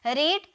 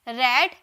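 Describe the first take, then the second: First: The vowel is long, like 'reed'. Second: The vowel is short, like 'red'. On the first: It is the present form, to read. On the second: It is the past form.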